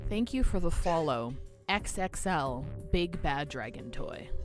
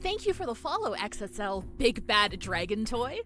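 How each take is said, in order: First: It is read plainly, without a put-on cheerful tone. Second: It sounds forced-cheerful, hiding misery underneath.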